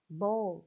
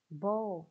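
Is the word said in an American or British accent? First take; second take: British; British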